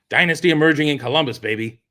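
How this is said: It is said as a falling statement.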